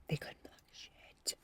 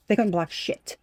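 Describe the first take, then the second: First: Breathy stage whisper, slow. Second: Said in the usual way. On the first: Acted. Tarot reader whispering to her viewer. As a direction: whisper it like a secret. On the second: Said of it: "whispered repeat follows".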